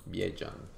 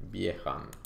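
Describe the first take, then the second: First: Biejan with a j sound in the middle; alternative pronunciation. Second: Biehan with a breathy h in the middle; tentative pronunciation. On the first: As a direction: try Biejan with j instead of h. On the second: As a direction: try saying Biehan with an h sound. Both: Real, not acted. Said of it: "I don't know how to pronounce it".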